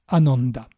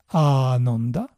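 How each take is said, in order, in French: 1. La première voyelle se garde brève. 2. La première voyelle se prononce longue. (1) "et A court dans l'autre" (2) "A long dans un cas"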